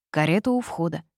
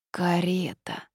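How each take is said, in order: First: Said in the usual way. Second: Mild dismayed moan; groaning.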